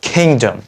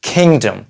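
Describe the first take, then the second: The two takes are said the same way.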